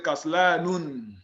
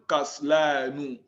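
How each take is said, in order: First: The word ends with an added n sound. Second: The word ends on a plain u vowel. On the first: The speaker calls it wrong. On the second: The speaker calls it right.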